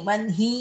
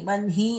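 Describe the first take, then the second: First: The h sound comes after the n. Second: The h sound comes after the n.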